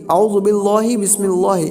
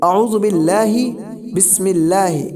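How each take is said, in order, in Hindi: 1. अल्लाह के नाम का L भारी और मोटा सुनाई देता है। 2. अल्लाह के नाम का L हल्का और बारीक सुनाई देता है। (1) "कुछ लोग पढ़ते हैं ... ऐसा पढ़ते तो ये गलत है" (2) "बल्कि ... इस तरीके से"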